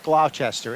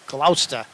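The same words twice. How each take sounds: First: It is said the way non-locals say it. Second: It is said the local New England way. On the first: The speaker calls it wrong. "It's not Gloucester" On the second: The speaker calls it right. "it's Gloucester. I'm from New England"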